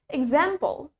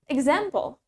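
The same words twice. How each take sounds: First: It is said in an American accent. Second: It is said in an American accent.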